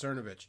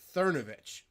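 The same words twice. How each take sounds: First: The name is said without a th sound. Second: The name is said with a th sound. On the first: The speaker calls it wrong. "Some people think it's pronounced" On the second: The speaker calls it right. "it's actually pronounced Cernovich with a T H sound"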